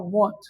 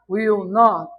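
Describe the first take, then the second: First: It is said as one short contracted word. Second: It is said as two full separate words. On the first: "won't, ele é muito mais rápido do que will not" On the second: "Você acha que o cara vai ficar falando devagar?"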